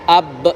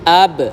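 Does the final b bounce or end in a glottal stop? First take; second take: glottal stop; bouncing. First: The final b ends in a glottal stop. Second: The final b bounces lightly toward an a. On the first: The speaker calls it wrong. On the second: The speaker calls it right.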